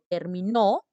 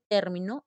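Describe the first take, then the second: First: The stress is on the last syllable. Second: The stress is on the first syllable. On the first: "si digo terminó es aguda" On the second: "si dice término es esdrújula"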